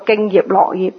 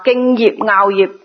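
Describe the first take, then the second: First: 樂 said as "lok" in 敬業樂業; 敬業樂業 with 樂 read lok; wrong lok reading. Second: 樂 said as "ngaau" in 敬業樂業; 敬業樂業 with 樂 read ngaau. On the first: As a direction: misread 樂 in 敬業樂業 like lok, not ngaau. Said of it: "就唔係讀". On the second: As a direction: pronounce 樂 in 敬業樂業 like ngaau, not lok. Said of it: "但係樂呢個發音呢". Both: Shown as a demonstration.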